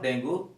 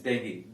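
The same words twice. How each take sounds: First: 'dengue' said as 'deng-goo'; mispronunciation. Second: 'dengue' said as 'deng-gee'; correct pronunciation. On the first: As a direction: give 'dengue' a wrong 'oo' ending. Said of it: "this is not". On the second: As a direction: end 'dengue' on 'ee', not 'oo'. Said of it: "This is". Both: Shown as a demonstration.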